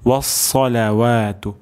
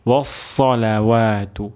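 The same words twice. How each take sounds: The two takes are said the same way.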